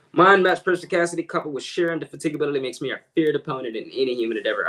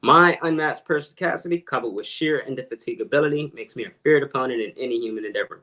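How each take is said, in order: First: Quick showy recital, starting higher; fast recitation. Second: A little slower for the back row; slower repeat. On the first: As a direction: rattle off the big words quickly. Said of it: "slower for you guys". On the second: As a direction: say the big words more deliberately. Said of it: "slower for you guys, further in the back". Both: Shown as a demonstration.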